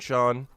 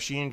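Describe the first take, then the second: First: The name is said like 'Sean'. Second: The name is said like 'Sheen'. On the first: The speaker calls it right. "Sheen is pronounced as Sean?" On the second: The speaker calls it wrong. "I keep forgetting that"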